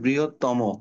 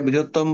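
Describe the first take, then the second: First: The word ends with an added 'o' vowel. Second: The word ends on a bare final consonant. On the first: The speaker calls it right. "ওকার উচ্চারণ করবা" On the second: The speaker calls it wrong. "এটা বৃহত্তম বলে ভুল হবে"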